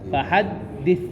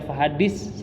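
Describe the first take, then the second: First: The last consonant is a soft lisped th. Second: The last consonant is a plain hissing s. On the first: The speaker calls it right. "yang benar adalah fahadis ... lidah posisinya harus di tengah-tengah kedua gigi seri" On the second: The speaker calls it wrong. "kalau antum baca fahadis salah"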